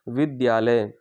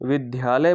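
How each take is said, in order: First: A half d is followed directly by ya. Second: An aspirated dha sound replaces the d-ya cluster. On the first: The speaker calls it right. "दा के नीचे हलंत लगता है, यानी कि वो आधा हो जाता है, और उसके बाद या" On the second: The speaker calls it wrong. "यहाँ पर धा नहीं बल्कि दिया होता है"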